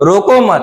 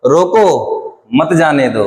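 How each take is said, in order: First: रोको मत run together as one phrase, higher pitch; comma after मत. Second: रोको on its own, pause, then मत जाने दो; comma after रोको. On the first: Teacher showing it means don't stop him, रोको मत as one unit. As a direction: join मत tightly to रोको, then break. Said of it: "मतलब उसको मत रोको". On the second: Teacher showing it means stop him, pause right after रोको. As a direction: break after रोको, keep मत जाने दो together. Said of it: "कामा यहां लगा दें". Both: Shown as a demonstration.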